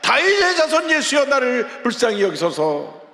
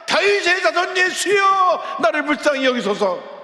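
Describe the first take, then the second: First: It is cried out earnestly, less loud. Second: It is cried out much louder.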